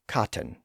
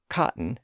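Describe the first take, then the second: First: The middle T is clearly pronounced as T. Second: The middle T is dropped as a glottal stop.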